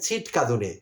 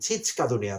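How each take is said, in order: First: The second syllable has a 't' sound. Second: The second syllable has a 'ch' sound. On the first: It imitates someone else's mispronunciation. The speaker calls it wrong. "ছিটকাদুনে কোনো শব্দ আছে কিনা আমার জানা নেই।" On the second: It is the real word. The speaker calls it right. "ছিচকাদুনে আছে যদ্দূর জানি।"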